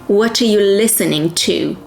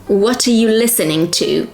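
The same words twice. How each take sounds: The two takes are said the same way.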